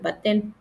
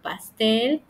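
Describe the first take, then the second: First: The s sound before the t is missing. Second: The s sound before the t is present. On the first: The speaker calls it wrong. "que ya no diga patel" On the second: The speaker calls it right. "Por ejemplo, pastel"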